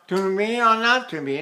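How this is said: The voice is pushed forward into the face. "now I've got it forward"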